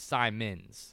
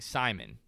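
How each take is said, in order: First: The name ends with an s sound. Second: The name ends without an s sound. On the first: The speaker calls it right. "but it's Simons" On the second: The speaker calls it wrong. "I was saying Simon"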